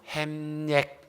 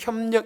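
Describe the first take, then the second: First: The first vowel is flattened to an 'ae' sound. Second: The first vowel is the standard 'yeo' sound. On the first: The speaker calls it wrong. "잘 못해. 햄력, 경제 이렇게 해요" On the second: The speaker calls it right. "특히 협력 이런 말을 잘 못하거든요"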